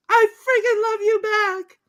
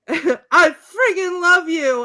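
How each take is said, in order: First: Very high, squealed reply; imitated high-pitched lovestruck woman; woman in love. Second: High, slow, loud declaration; imitated lovestruck shout; mock-passionate cry. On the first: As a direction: squeal it back in mock passion. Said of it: "And she says". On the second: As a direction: cry it out with hammed-up ardor. Acted declaration of love.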